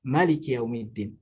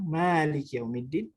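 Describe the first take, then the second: First: The first vowel of Malik is kept short. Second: The first vowel of Malik is drawn out long.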